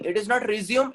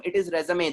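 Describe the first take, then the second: First: Resume said as ree-ZYOOM, the plain English verb; the rejected way to say resume; wrong pronunciation. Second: Resume said as REH-zuh-may, French style; the teacher's correct way to say resume; correct pronunciation. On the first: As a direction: say resume like ree-zee-oom, stress on the middle. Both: Shown as a demonstration.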